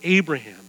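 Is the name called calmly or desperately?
calmly. The name is said calmly.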